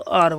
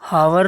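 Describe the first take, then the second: First: The word begins with a vowel sound. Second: The word begins with an h sound. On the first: The speaker calls it right. "इसको आर बोलते हैं" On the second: The speaker calls it wrong. "इसको हावर नहीं बोलते हैं"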